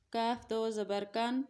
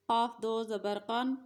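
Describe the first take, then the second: First: کاف and کن with a light front k from the mouth; ہلکا کاف; plain kaf. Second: موٹا قاف; thicker qaf. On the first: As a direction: keep کن light and forward. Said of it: "اس قاف کی sound جو ہے وہ تھوڑی سی موٹی ہوگی". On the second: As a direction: say قن thick, back in the throat. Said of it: "نقطوں والا قاف جو ہے تھوڑا موٹا پڑا جائے گا". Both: Shown as a demonstration.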